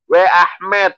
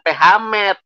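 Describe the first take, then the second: First: The word begins with a W sound. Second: The word begins with a P sound. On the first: The speaker calls it right. "W Ahmed bukan P Hamed" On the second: The speaker calls it wrong. "bukan P Hamed"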